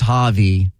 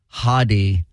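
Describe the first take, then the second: First: The name is said without the D sound. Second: The name is said without the V sound. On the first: "Maybe it's the D" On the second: "Maybe it's the V"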